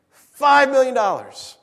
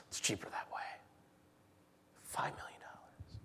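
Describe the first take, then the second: First: "Five" hit higher and louder, slow; stress on five. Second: Unvoiced hushed whisper; "Five million dollars" whispered. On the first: Acted. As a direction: land "Five million dollars" like a blow. Repeating the outrageous sum. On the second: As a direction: breathe it out in stunned disbelief.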